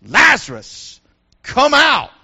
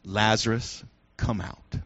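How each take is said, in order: First: Loud, booming call; loudspeaker voice. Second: Very low, quiet, solemn call; hushed command. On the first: Loudspeaker in paradise calling Lazarus, loud and commanding. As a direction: boom it out like a loudspeaker. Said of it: "it's like a loudspeaker in paradise". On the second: Jesus at the tomb calling Lazarus, hushed and solemn. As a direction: drop low and soft for a grave summons. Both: Acted.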